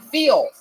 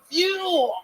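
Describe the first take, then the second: First: The word has an 'ee' vowel sound. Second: The word has a clear 'yoo' vowel sound. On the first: The speaker calls it wrong. "but he's saying feel" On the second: The speaker calls it right. "he's saying fucking fuel"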